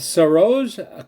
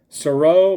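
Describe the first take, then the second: First: The name ends with a J sound. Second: The name ends without any J sound.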